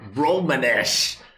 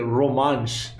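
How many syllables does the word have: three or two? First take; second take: three; two. First: It has a vowel before the final sh. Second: It has no vowel before the final sh. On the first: "the worst pronunciation I've ever heard" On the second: "Isn't it Romansh?"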